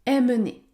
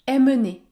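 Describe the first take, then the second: The two takes are said the same way.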